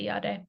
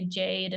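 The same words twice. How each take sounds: First: The name is said with a Finnish pronunciation. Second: The name is said with a non-Finnish pronunciation. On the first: The name is said as it is at home. "in Finland, I go with the Finnish pronunciation" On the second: The name is adapted for a foreign listener. "If I introduce myself to an Italian, I might say Jade instead"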